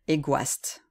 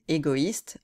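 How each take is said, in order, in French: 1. Le o et le i se fondent en un seul son 'wa'. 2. Le o et le i se prononcent comme deux voyelles séparées. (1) "qui d'habitude se prononce wa, si on n'avait pas le tréma" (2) "les deux voyelles qui se suivent se prononcent séparément"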